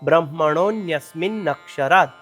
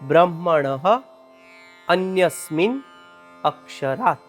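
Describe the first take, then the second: First: The three words are run together as one word. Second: The three words are said separately with breaks. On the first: "આ પ્રમાણે તેનું ઉચ્ચારણ કરવાનું છે" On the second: "આ શબ્દમાં છૂટા છૂટા ત્રણ શબ્દ સમાયેલા છે"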